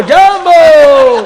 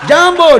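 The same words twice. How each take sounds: First: Jambo stretched very slow, high and loud with a laugh; drawn-out mock greeting shout. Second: Short high shouted greeting; mock African greeting shout. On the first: Storyteller stretches the African greeting into a long laughing shout. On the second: Storyteller shouts an African greeting to the crowd, quick and high. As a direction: bark out jambo like a loud welcome. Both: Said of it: "આફ્રિકાના આવેલા".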